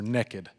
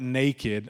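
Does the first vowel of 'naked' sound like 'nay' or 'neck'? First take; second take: neck; nay. First: The first vowel sounds like 'neck'. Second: The first vowel sounds like 'nay'. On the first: "I live in Texas. It's with like an E. It's N-E-K-E-D" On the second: "Not naked"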